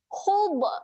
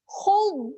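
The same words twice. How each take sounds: First: The final consonant is released with a bounce. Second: The final consonant is held without releasing air. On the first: The speaker calls it wrong. "Hub adalah bunyi yang salah" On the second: The speaker calls it right. "tahan kat situ, jangan lepaskan angin"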